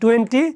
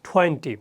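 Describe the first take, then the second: First: The t sound is plain, without a puff of air. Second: The t sound has a strong puff of air. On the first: The speaker calls it wrong. "আগে বলছি" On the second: The speaker calls it right. "এটাই পার্থক্য করতে, বড় পার্থক্য"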